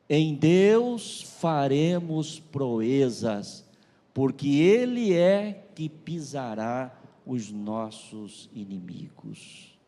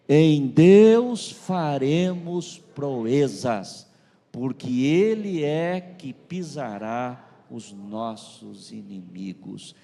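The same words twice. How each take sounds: First: It is read at a normal volume. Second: It is read louder and more forcefully.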